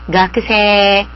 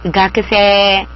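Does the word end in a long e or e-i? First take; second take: long e; long e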